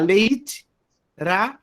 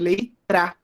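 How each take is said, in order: First: The word is split into two separate syllables. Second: The syllables are joined into one larger syllable. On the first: "ao invés de falar leit, ra" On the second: "eu posso fazer leitra. Eu faço uma sílaba maior"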